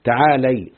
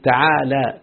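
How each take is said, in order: First: تعالي said "ta-aa-LAY", ending in ay; fatha on lam, feminine ending. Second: تعالى said slowly as "ta-aa-laa"; drawn-out تعالى with a long final a; invariable open ending. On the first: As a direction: close تعالي on a clear "lay". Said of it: "تعالى بفتح اللام يعني". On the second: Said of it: "تقلل الذكر والأنثى". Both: Shown as a demonstration.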